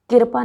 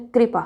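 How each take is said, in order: First: कृपा broken as "kir-pa"; wrong कृपा. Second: कृपा as "kri-pa"; correct कृपा. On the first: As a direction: put the vowel before र in कृपा: "kirpa". (कृपा को किरपा जैसा) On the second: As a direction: start कृपा with a joined "kri". (कृपा, क्रि से शुरू) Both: Shown as a demonstration. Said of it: "कृपा नहीं होता है".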